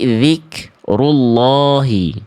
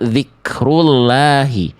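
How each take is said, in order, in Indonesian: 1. L-nya tebal dan berat. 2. L-nya tipis dan ringan. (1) "tapi zikrullahi. Karena dhammah" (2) "bukan zikrullahi"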